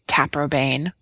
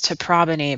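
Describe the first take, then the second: First: The name is said the common modern way. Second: The name is said the older classical way. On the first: This is how most people say it. "but most people say" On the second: This is the historic pronunciation. "the historic classical pronunciation is"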